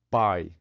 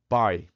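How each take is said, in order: No difference in how they are said.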